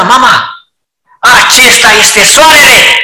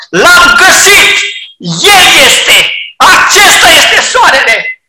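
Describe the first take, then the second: First: Put-on the old way. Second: High, loud, firm declaration; completely sure, triumphant cry; sure and certain. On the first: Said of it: "de ce nu a procedat ca mai înainte". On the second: Acted. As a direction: proclaim it with full certainty. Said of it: "Deplin, hotărât și sigur".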